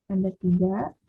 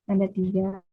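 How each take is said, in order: No difference in how they are said.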